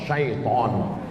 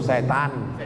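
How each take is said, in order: First: The first syllable is said as 'syai'. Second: The first syllable is said as 'se'. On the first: "yang betul ni mana Pak Ustaz? Setan apa syaiton? Syaiton" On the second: "Cuman orang kita payah bilang syaiton"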